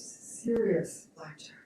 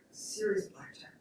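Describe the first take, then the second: First: Said in the usual way. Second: Softer, hushed repeat for effect; hushed emphasis. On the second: Real, not acted. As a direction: drop to a near-whisper for weight. Repeats phrase for grave effect.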